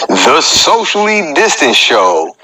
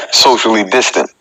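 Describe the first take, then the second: First: Slow, drawn-out title read of The Socially Distant Show; show title announcement. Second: Said in the usual way. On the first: Shown as a demonstration. Host naming his stream to viewers, slow announcer read.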